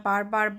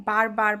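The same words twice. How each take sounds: No difference in how they are said.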